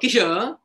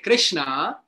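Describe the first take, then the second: First: The r sound after the k is dropped. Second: The r sound after the k is pronounced. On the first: The one named need not listen. The speaker calls it wrong. "Krishna is not obliged to hear me" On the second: The one named listens and pays attention. The speaker calls it right. "when I say Krishna, Krishna takes attention"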